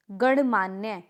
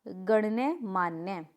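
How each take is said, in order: First: गणमान्य as gan-maan-ye; incorrect pronunciation. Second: गण्यमान्य slowly, as gan-ye maan-ye; correct pronunciation. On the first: Teacher showing a mistake, गणमान्य with plain "gan". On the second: Teacher answering, गण्यमान्य drawn out in halves. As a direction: sound "ya" in both halves of गण्यमान्य. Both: Shown as a demonstration. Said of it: "तो क्या होगा?".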